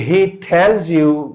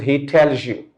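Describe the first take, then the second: First: The z in 'tells' stays a plain z sound. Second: The z in 'tells' links into a zh sound. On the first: "if there's z sound at the end" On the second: "it is changed to zh, zh sound"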